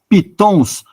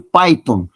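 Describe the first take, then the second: First: It is said with a Portuguese pronunciation. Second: It is said with an English pronunciation. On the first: "Nós podemos dizer em português" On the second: "o correto, a pronúncia é"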